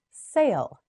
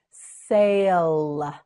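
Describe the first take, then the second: First: Said in the usual way. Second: "Sail" drawn out long and loud; slow modelling. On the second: Shown as a demonstration. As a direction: stretch the vowel and l of "Sail". Teacher models word slowly.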